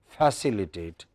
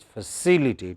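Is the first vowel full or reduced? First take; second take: full; reduced. First: The first syllable has a full, longer vowel. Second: The first syllable is weak and shortened. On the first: The speaker calls it wrong. "Is no longer facilitate" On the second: The speaker calls it right. "Non-stressed syllable would become very weak. We won't say fa, we'd say just f"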